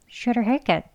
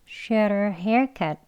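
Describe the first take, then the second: First: The phrase is spoken at a fast pace. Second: The phrase is spoken at a slow pace. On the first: "빨리요" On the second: "천천히 해볼게요"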